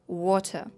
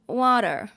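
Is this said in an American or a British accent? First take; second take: British; American. First: A British accent with a deep, chesty sound. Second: An American accent with a nasal sound. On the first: "як глибоко" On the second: "Як начебто я говорю собі в ніс"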